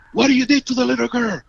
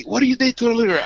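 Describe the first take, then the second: First: Higher, fast, demanding cop voice; quick, high accusing question; angry cop. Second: Higher and very fast accusing cop; fast, high, demanding cop's question; angry cop. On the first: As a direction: bark it out like an accusing policeman. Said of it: "he say". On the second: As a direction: rattle off the accusation at speed. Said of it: "I remember that". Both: Retold or imitated.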